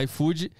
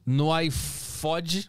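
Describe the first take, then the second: First: "iFood" said "ai-fú-dji" with a long u and a rise; corrected brand name. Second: "iFod" said slowly with a short closed o, like "ai-fód"; mispronounced brand. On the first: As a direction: fix it to "iFood", long u rising at the end. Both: Real, not acted. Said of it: "Opa, desculpa".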